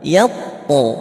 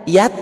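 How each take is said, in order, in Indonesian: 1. Huruf t di akhir dilepas dengan gema memantul. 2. Huruf t di akhir dihentikan tanpa pantulan sama sekali. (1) "Kenapa tadi bacanya dipantulin sama Ustadz?" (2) "Kenapa enggak yat?"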